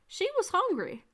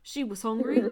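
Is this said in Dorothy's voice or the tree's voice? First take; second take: Dorothy's; tree's. First: It is said in Dorothy's voice. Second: It is said in the tree's voice.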